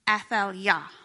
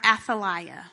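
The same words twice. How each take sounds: First: The name is said with its original sounds. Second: The name is said with English-style sounds. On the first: The speaker calls it right. "Her name is actually Athaliah" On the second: The speaker calls it wrong. "I'm going to Englishfy her name"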